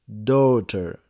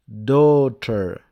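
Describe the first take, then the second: No difference in how they are said.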